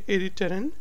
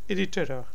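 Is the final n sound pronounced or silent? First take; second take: pronounced; silent. First: The final n sound is clearly pronounced. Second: The final n sound is dropped. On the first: "Some people would say irriteren" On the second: "So N is silent in their voice"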